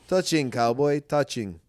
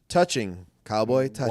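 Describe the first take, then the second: First: It is said in a put-on German accent. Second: It is said without a German accent.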